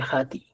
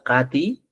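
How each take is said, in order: First: The word begins with a breathy h sound. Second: The word begins with a hard k sound. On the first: This is the Chanca dialect form. "más aspirado en el quechua chanca" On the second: This is the Cusco dialect form. "como en el quechua cusco"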